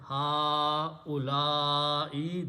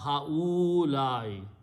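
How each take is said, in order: First: The first syllable is stretched, middle said quickly. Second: The middle vowel is stretched long. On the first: The speaker calls it right. "first stretch on ha, then quickly say u, then stretch on la" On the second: The speaker calls it wrong. "We all pronounce this word wrong"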